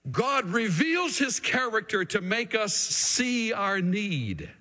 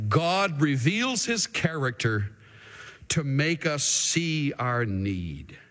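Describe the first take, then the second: First: Said in the usual way. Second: Slow principle statement. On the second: Shown as a demonstration. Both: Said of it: "Second principle".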